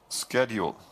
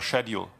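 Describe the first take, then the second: First: It is said with an American pronunciation. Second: It is said with a British pronunciation.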